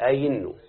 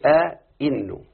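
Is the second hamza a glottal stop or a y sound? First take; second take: y sound; glottal stop. First: The second hamza is replaced by a y sound. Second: Both hamzas are pronounced as glottal stops. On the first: "فصارت أين" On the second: "وأصلها أصلها كذا"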